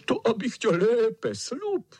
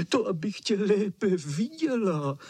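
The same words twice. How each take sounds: First: Much higher, louder roaring cry, slow; wolf chasing the girl, yelling high and loud; shouting wolf. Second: Much higher, delighted false grandma voice; wolf as grandma, rejoicing high; gleeful wolf. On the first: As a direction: yell it as the wolf pounces. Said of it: "křičel vlk". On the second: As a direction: crow it out with glee, the disguise slipping. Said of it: "radoval se vlk". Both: A narrator's reading.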